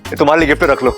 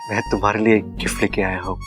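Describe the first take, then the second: First: It is said boldly and confidently. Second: It is said lovingly and romantically.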